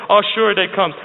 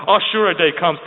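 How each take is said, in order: Both takes have the same delivery.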